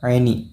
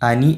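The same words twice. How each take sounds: First: It begins with a throaty ain consonant. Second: It begins with a plain vowel onset. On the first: The speaker calls it right. "ഐനാണ് കേട്ടോ" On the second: The speaker calls it wrong. "അനി എന്നല്ല"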